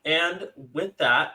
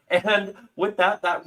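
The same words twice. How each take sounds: First: Said in the usual way. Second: Slow, higher show-host wrap-up. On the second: Shown as a demonstration. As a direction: announce it like a TV host. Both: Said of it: "I forgot I was hosting".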